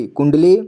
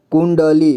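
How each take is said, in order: First: Said in the usual way. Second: कुंडली split as "kun-da-lee"; कुंडली read piece by piece; sounded out. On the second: Shown as a demonstration. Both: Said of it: "तो इसे कुंडली पढ़ेंगे".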